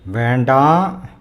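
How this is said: It is said in a stern, warning tone. It warns someone against doing something. "I'm warning you guys against something"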